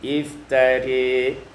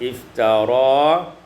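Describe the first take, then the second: First: The final vowel is tilted toward e. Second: The final vowel is an open a.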